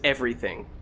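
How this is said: American accent, ending with a full 'ing' sound. "In the U S, it is everything"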